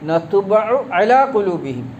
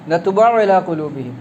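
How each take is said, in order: First: The two ain sounds are said separately. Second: The two ain sounds blend into one. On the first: The speaker calls it right. "രണ്ടും രണ്ടായിട്ട് തന്നെ പറയണം" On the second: The speaker calls it wrong. "ഒരു ഐന് കേൾക്കുക, അങ്ങനെയല്ല"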